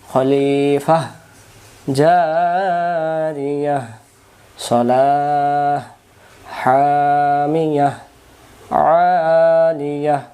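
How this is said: Pauses after every word, each ending in h. "যদি সবখানে দম সারি"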